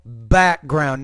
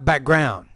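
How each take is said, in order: First: The stress is on the first syllable. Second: The stress is on the second syllable. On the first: The speaker calls it right. "put stress on that first word" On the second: The speaker calls it wrong. "not the second there"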